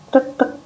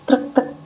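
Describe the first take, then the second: No difference in how they are said.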